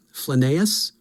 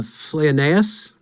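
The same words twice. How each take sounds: First: Flaneus shortened to fluh-NAY-us, questioning; second tentative pronunciation. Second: Flaneus slowly stretched as FLAY-uh-NAY-us, questioning; tentative pronunciation. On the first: Speaker lacking help with a name, retries Flaneus as fluh-nay-us. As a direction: try Flaneus in three syllables, rising at the end. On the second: Speaker lacking help with a name, tries Flaneus as flay-uh-nay-us. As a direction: sound out Flaneus in four syllables, rising at the end. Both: Shown as a demonstration. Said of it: "have Tom here to help me".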